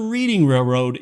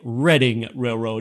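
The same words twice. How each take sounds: First: The first vowel is a long ee sound. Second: The first vowel is a short e sound. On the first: The speaker calls it wrong. "it's not the Reading Railroad" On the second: The speaker calls it right. "It's pronounced the Reading Railroad, even though it's spelled like reading"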